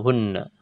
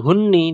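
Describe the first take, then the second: First: The word ends in an a vowel. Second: The word ends in an i vowel. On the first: The speaker calls it right. "tapi tetap dibaca hunna" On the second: The speaker calls it wrong. "ini tidak dibaca hunni"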